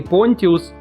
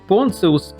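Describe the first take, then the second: First: The consonant before -ius is a plain 't'. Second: The consonant before -ius is a 'ts' sound. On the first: This follows the Greek-language books. "если верить грекоязычным книгам" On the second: This follows the rules of Latin. "если произносить по правилам латыни"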